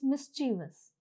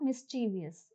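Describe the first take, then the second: First: "mischievous" in three syllables, MIS-chi-vus; teacher gives the right form; correct pronunciation. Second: "mischievous" with an extra syllable, mis-CHEE-vee-us; teacher shows the mistake; wrong pronunciation. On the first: Teacher correcting students, MIS-chi-vus in three syllables. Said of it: "it's mischievous". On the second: Teacher demonstrating a common mistake, mis-CHEE-vee-us. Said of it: "The pronunciation is not mischievous". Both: Shown as a demonstration.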